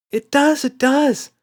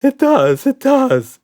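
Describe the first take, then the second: First: High, loud insisting; insistent child. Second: Much higher, louder insisting. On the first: Emma insists to Daddy, high and loud. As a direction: squeal it like a stubborn kid. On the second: Red insists to Roger, high and loud. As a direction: squeal it stubbornly. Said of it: "insisted Red". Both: A narrator's reading.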